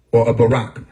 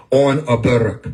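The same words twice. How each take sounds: First: "Barak" said as buh-RAK, stress on the last syllable; corrected "Barak". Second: "Barak" said as BEH-rak, stress on the first syllable; first take of "Barak". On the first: Correcting himself on how "Barak" is said, stressing buh-RAK. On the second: Correcting himself on how "Barak" is said, stressing BEH-rak. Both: Shown as a demonstration.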